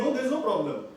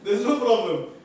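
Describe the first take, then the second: First: It sounds happy and relaxed. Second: It sounds angry and curt.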